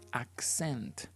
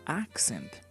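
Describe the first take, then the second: First: The stress is on the second syllable. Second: The stress is on the first syllable. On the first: It names an action. "if you refer to this word as a verb" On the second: It names a thing. "the intonation goes on the first syllable"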